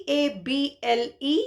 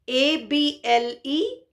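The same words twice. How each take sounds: No difference in how they are said.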